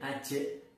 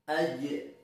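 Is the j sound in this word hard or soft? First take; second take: hard; soft. First: The j sound is hard and harsh. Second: The j sound is soft and smooth. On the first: The speaker calls it wrong. "tidak boleh aje" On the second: The speaker calls it right. "Lebih soft, lebih halus"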